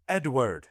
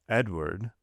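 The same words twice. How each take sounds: First: Raised-pitch, restrained harsh call; harsh shout. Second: Measured, imperious call of a name. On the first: Father orders his disobedient son out, harsh shout held back. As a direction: snap the name as a sharp order. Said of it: "shouted Villefort so harshly". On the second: Father summons his son before sending him out, imperious. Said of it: "looking at the child imperiously". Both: A narrator's reading.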